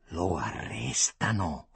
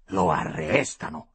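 First: Low, slow statement through the teeth; sibilato tra i denti. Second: Low question, middle word stretched; domanda incredula. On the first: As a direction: force it slowly through the teeth. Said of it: "fischiò allora tra i denti". (detto basso e lento tra i denti) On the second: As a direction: ask it firmly, dragging out the verb. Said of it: "domandò Mauro Mortara". (domanda bassa, con "arrestano" allungato) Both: A narrator's reading.

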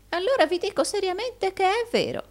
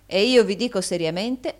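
First: Very high-pitched earnest protest; high, pleading assertion; insistent old usurer. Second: Louder, moderately raised, far less high-pitched reply; stern echo of the other's phrase; firm retort. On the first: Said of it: "disse il vecchio Arturo". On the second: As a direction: throw the words back firmly. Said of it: "soggiunse Rodolfo". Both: A narrator's reading.

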